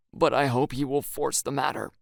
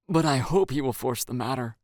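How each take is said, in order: First: BUT stressed, rest falling. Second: Hope stressed and lifted. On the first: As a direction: lean on the word But. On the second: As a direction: lean on the word hope. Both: Shown as a demonstration. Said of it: "I ask".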